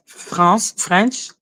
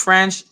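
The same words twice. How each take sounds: First: French accent, the word lifted at the end. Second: Said in the usual way. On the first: Shown as a demonstration. Showing how French sounds pronounced, French accent. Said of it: "like, in the French accent". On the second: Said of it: "if I was to pronounce French".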